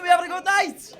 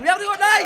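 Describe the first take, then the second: First: Crowd call. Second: Asked again, louder; louder crowd call. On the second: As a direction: push the room to shout back. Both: Real, not acted.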